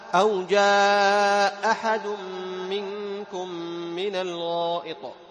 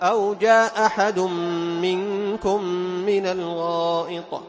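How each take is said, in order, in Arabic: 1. حرف المد قبل الهمزة يُمَدّ مدًّا طويلًا واضحًا. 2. حرف المد قبل الهمزة يُمَدّ مدًّا قصيرًا. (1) "فأمد" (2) "على القول الأول"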